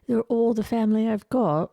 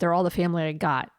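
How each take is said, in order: First: It is said in a put-on English accent. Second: It is said in the speaker's usual accent. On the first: The speaker calls it right. "probably really nice like that" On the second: The speaker calls it wrong. "probably not like that"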